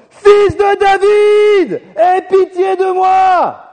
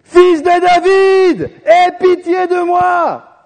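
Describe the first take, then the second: First: Very high, slow, drawn-out shout, desperate; desperate beggar shouting over the crowd, slowly; shouting even louder. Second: Long, drawn-out high shout, pleading; high, slow pleading shout; crying out. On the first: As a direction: cry out as hard as you can, begging for mercy. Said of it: "Il a crié encore plus fort". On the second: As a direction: call out slowly across the crowd, begging for mercy. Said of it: "il se met à crier". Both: Retold or imitated.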